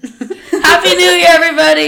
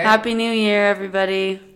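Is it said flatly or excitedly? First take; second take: excitedly; flatly. First: It is said excitedly, with more energy. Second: It is said flatly, without much energy.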